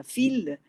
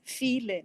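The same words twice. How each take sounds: First: "fil" with a higher, accented I; stress on the I. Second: Said in the usual way. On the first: Shown as a demonstration. Lecturer showing the poet's added accent, stressed I in "fil". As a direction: lean on the vowel I in "fil". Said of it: "la sílaba I será más acentuada".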